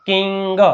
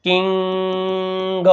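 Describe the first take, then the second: First: Said in the usual way. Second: કિંગ with the ING held long on one level note; drawn-out blend. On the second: Shown as a demonstration. Teacher blending sounds for pupils, કિંગ stretched long. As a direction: stretch કિંગ very slowly before releasing the G. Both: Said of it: "ભેગું".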